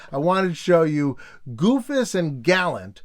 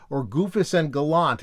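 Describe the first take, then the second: First: Says Gallant as "GAL-ant", stressed on GAL; "Goofus and Gallant" with Gallant said "GAL-ant"; pronunciation try. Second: Says Gallant as "ga-LANT", stressed on LANT; "Goofus and Gallant" with Gallant said "ga-LANT"; pronunciation try. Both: Shown as a demonstration. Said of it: "I never knew which one it was".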